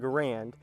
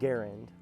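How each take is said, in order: First: The name is said the common, popular way. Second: The name is said the designer's own way. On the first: This is how most people say the name. The speaker calls it wrong. "that's the uh, common pronunciation for it" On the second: This is how the designer said his own name. The speaker calls it right. "now that I've heard it, it's hard for me to uh, not call it"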